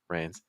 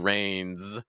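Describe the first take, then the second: First: The final voiced sound is light and brief. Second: The final voiced sound is strong and drawn out. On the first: "it could be just like" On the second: "it doesn't have to be that strong"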